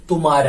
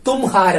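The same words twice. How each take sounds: First: തുമാര with no h, said tu-maa-ra; correct pronunciation. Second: തുംഹാര with the h sounded, read letter by letter as written; read as spelt. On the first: Hindi teacher giving students the correct spoken form, said cleanly as tu-maa-ra. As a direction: drop the h and say തുമാര smoothly. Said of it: "correct ആയിട്ടുള്ള അതിന്റെ pronunciation". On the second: Hindi teacher showing students the spelling-based reading, then the letter-by-letter reading. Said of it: "എഴുതുന്നത് പോലെ വായിച്ചാൽ". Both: Shown as a demonstration.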